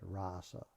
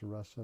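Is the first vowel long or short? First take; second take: long; short. First: The first vowel is long. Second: The first vowel is short. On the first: The speaker calls it wrong. "not rasa" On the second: The speaker calls it right. "it's a short A, it's rasa"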